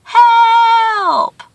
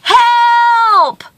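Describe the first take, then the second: First: Long high call echoing back; drawn-out, high echo of a cry; distant echo. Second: Long, high cry for help; one drawn-out high holler; storyteller's scream for help. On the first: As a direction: mimic a cry coming back from far away. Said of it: "from the distance, he heard". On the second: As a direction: call out as if stranded on a mountainside. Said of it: "and he screamed". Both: A narrator's reading.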